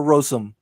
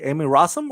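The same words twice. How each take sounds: First: Rossum with a long "oh" in the first syllable; first vowel of Rossum as in "rose"; alternative pronunciation. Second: Rossum with an "ah" in the first syllable; first vowel of Rossum open, as in "father"; pronunciation check. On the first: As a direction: say Rossum as ROH-sum. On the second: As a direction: say Rossum as RAH-sum. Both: Shown as a demonstration. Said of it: "hope I pronounced that last name correctly".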